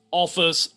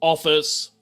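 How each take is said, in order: Both takes have the same delivery.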